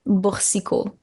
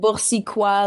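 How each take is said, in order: First: The name ends with an 'oh' sound. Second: The name ends with a 'wah' sound. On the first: The speaker calls it right. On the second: The speaker calls it wrong.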